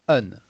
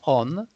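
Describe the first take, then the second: First: The vowel is a short, reduced 'uh' sound. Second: The vowel is a full, open 'o' sound. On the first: The speaker calls it right. "but un" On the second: The speaker calls it wrong. "Not on"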